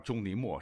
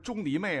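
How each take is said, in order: First: The last syllable is pronounced 'mo'. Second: The last syllable is pronounced 'mei'. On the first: The speaker calls it right. "实际上叫钟离墨是比较准确的" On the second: The speaker calls it wrong. "很多人把它读成昧"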